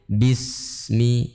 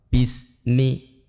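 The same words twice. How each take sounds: First: The s sound flows with continuous air. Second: The s sound is cut short without airflow. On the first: The speaker calls it right. "Harus mengalir" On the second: The speaker calls it wrong. "Atau tanpa mengalir"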